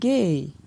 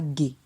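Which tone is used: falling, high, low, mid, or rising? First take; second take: falling; low. First: The syllable has a falling tone. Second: The syllable has a low tone. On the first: "ton descendant" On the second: "ton bas"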